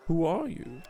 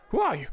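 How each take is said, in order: First: Said in the usual way. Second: Higher, jumpy gnome question; a nervous gnome blurting it out; startled gnome. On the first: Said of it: "player reads dialogue option". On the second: Acted. Gnome startled by the queen, jumpy and high.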